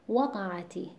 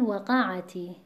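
First: The stress is on the first syllable. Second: The stress is on the second syllable. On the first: The speaker calls it right. "وزن کلمه بر حرف واو بود که اولین حرف این کلمه است" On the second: The speaker calls it wrong. "اونطوری انگار واو جداه و این کلمه قعته هست"

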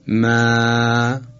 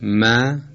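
First: The vowel after m is drawn out long. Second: The vowel after m is short. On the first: "اگر این فتحه رو امتداد بدید" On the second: "فتحه میم در حرف ما"

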